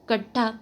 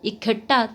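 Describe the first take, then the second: First: The word begins directly with 'k'. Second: The word begins with an 'i' vowel.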